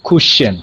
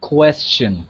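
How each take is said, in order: First: It begins with 'cush', without the 'quest' sound. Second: It begins with a clear 'quest' sound. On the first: The speaker calls it wrong. "অনেকেই বলে cushion. It's not cushion" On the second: The speaker calls it right. "It's quest. Ko e. Question"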